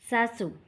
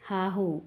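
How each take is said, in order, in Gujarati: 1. વ્યંજનો s અવાજના છે. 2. વ્યંજનો h અવાજના છે. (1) "ગુજરાતી ભાષા" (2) "સ્થાનિક બોલી"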